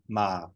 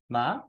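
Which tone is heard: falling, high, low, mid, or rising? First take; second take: low; high. First: The pitch starts below middle and goes lower. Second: The pitch starts above middle and goes higher. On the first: "a low tone that starts just below the mid-tone and goes lower" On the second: "a high tone, starts just above the mid-tone and goes higher"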